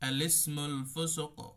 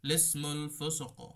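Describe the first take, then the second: First: It begins with an 'a' vowel before 'lismul'. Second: It begins directly with 'li', no opening vowel. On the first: "হামজাতে জবর দেব" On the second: "হামজা এবং লাম এই দুইটাই বাদ দিব"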